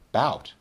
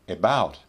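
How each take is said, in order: First: It is said in its most reduced form. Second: It is said in its full, careful form. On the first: "the least formal" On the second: "the most formal"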